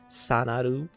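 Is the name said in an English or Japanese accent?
Japanese. The name is said with a Japanese accent.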